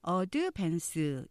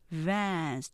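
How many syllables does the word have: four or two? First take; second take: four; two. First: It is said in four even syllables. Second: It is said in two syllables, last one stressed. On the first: "이렇게 4음절로 알고 계시지만" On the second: "뒤에 액센트 있어요"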